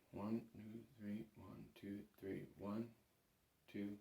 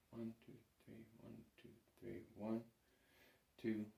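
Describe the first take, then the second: No difference in how they are said.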